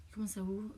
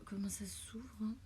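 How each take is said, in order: First: Said in the usual way. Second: Whispered to herself; breathy whisper while fiddling. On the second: Real, not acted. Struggling to open package.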